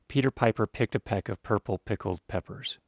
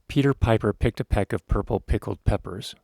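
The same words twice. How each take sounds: First: The p sounds stay clean without pops. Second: The p sounds make low thumping pops. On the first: The speaker calls it right. "And if I turn just a little bit" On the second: The speaker calls it wrong. "you can get this sort of low frequency poofing sound. Here's an example"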